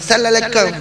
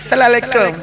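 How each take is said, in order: No difference in how they are said.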